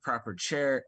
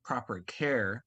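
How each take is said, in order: First: "proper chair" with a slurred ch for the c; slushy sh for s. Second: "proper care" said slowly and clearly with a clean k; careful correction. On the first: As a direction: care slurs into "chair". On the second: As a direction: fix it to a crisp "care". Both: Real, not acted. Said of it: "or sorry".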